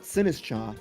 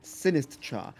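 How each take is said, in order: The two takes are said the same way.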